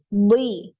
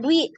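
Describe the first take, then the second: First: The consonant sounds heavy and thick. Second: The consonant sounds light and thin. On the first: The speaker calls it right. "tebal ya karena saking dia tebal" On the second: The speaker calls it wrong. "jangan dwi gitu ya"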